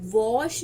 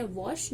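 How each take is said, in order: First: वॉश drawn out with a long, stressed o; wrong long vowel. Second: Said in the usual way. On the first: Shown as a demonstration. Teacher showing students the wrong long reading. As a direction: stretch the o in वॉश slowly. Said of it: "हम वॉश नहीं बोलते". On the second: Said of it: "क्या बोलते हैं?".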